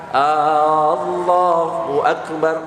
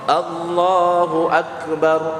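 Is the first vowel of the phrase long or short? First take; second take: long; short. First: The opening vowel is drawn out long. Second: The opening vowel is short. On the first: It asks whether Allah is the Greatest. The speaker calls it wrong. "ketika huruf A-nya dipanjangkan" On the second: Allah is the Greatest. The speaker calls it right. "artinya Allah Maha Besar"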